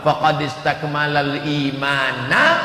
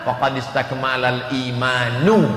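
First: The last word ends with an 'a' vowel. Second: The last word ends with a 'u' vowel. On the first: The person has perfected their faith. "Kalau dibaca faqad istakmalal imanna, dia sudah menyempurnakan imannya" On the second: The person's faith has become perfect. "Tapi kalau dibaca faqad istakmalal imanu, imannya sudah sempurna"

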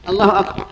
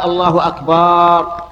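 First: The last vowel of akbar is kept short. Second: The last vowel of akbar is drawn out long. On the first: It means God is greatest. The speaker calls it right. "يعني الله أكبر" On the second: It means drums. The speaker calls it wrong. "لا يجزئ، لأنه إذا قال أكبر فهو جمع"

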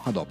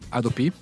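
First: The stress falls before the final syllable. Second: The stress falls on the final syllable.

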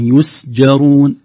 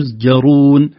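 First: The s is breathy and voiceless. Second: The s loses its breathiness, sounding voiced. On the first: The speaker calls it right. "السين بهمسها" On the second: The speaker calls it wrong. "لو لم ننتبه ستقول"

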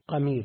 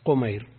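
First: The first syllable has the vowel a. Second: The first syllable has the vowel u. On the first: "بفتح القاف" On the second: "كله بالتصغير"

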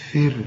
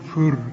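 First: The letters sound light and thin. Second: The letters sound heavy and emphatic. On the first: The speaker calls it right. "أنا عاوز تقولها لي فر ... كل الحروف دي مرققة" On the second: The speaker calls it wrong. "ناس كتير قوي بتقولها بطريقة فيها نشاز كده"

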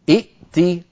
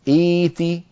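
First: Two glottal stops are pronounced in a row. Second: The second glottal stop becomes a long vowel. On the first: The speaker calls it wrong. "ولكن العرب لا تجمع بين همزتين ثانيتهما ساكنة" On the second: The speaker calls it right. "ننتقل إلى الصورة الأخيرة التي نفعلها"

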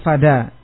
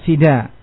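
First: The first vowel is an open 'a' sound. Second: The first vowel is a close 'i' sound. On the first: "kalau seperti ala berarti fada" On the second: "Wa ila dan seperti ila"

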